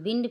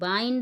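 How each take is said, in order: First: The vowel is a short 'i' sound. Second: The vowel is a long 'eye' sound. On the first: The speaker calls it wrong. "ये बिंड फिंड नहीं है" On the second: The speaker calls it right. "ये बाइंड है"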